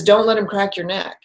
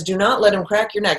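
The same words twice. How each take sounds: First: Said in the usual way. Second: Insist, leaning on "not" and "let"; a little more emphatic. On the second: Retold or imitated. The warning voice speaks again to Kevin, more emphatic. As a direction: spell out "Do not let him" firmly, each word weighted. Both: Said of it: "It's a little more emphatic".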